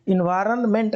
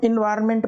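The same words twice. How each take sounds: First: "एनवायरनमेंट" with every n sounded, in-vaa-ran-ment; full spelling pronunciation. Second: "एनवायरनमेंट" squeezed to in-vaar-ment, first n of "-nment" dropped; everyday pronunciation. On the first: Teacher shows what we do not read, fully sounded pronunciation. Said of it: "नहीं पढ़ते". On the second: Teacher shows how we usually read it, n-dropping pronunciation. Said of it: "हम एनवायरनमेंट पढ़ते हैं". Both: Shown as a demonstration.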